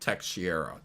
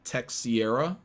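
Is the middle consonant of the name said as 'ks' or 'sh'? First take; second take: sh; ks. First: The middle consonant sounds like 'sh'. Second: The middle consonant sounds like 'ks' in Tex. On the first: "proper pronunciation is something along the lines of ... like an sh" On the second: "most people pronounced it pronounced it Texiera, ... because he signs his name Tex"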